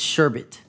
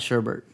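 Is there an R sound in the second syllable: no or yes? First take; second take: no; yes. First: The second syllable has no R sound. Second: The second syllable has an R sound. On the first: The speaker calls it right. "That's how the word is pronounced" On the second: The speaker calls it wrong. "It's not sherbet. There's no R"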